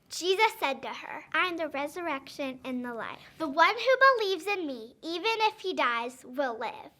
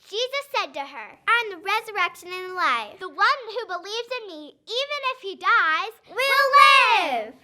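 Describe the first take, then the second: First: It is said at normal volume. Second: It is said loudly.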